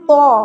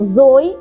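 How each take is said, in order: First: It is a heavy t with no final glide. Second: It starts with j and ends in a y glide. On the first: The speaker calls it right. "Correct pronunciation దీనిది ఏది అంటే" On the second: The speaker calls it wrong. "ఈ విధంగా చెబుతారు. కానీ ఇది సరైన పద్ధతి కాదు"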